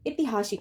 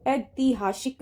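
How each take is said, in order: First: ऐतिहासिक with quick short ti; ऐतिहासिक joined up, opening syllables short; corrected form. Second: ऐतिहासिक slowly, broken into syllables; wrong pronunciation. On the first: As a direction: say ऐतिहासिक as e-ti-haa-sik. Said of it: "ऐतिहासिक होता है". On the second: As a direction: say ऐतिहासिक as ai-tee-haa-shik. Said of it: "ऐतिहासिक ना होके". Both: Shown as a demonstration.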